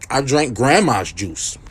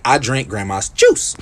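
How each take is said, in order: First: Slow, with "grandma's" leaned on hard; stress on GRANDMA'S. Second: Slow line, "juice" lifted at the end; stress on JUICE. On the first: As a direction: put the weight on "grandma's", not "juice". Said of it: "the way you said that makes it sound like". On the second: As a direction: save the emphasis for "juice". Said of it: "You say". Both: Shown as a demonstration.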